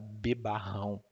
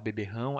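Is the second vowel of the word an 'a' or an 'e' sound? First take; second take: a; e. First: The second vowel is an 'a' sound. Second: The second vowel is an 'e' sound. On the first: This is the regional form used in Ceará. "lá no Ceará, a gente fala bebarrão" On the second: This is the standard form of the word. "em vez de falar beberrão"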